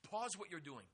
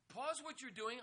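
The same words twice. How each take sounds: First: Said in the usual way. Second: Urgent higher repeat. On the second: Shown as a demonstration. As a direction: lift PAUSE high and make it rise. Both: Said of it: "Pause whatever you are doing".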